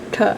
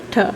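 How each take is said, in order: First: The T is made with the tongue curled back. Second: The T is made with the tongue curled back.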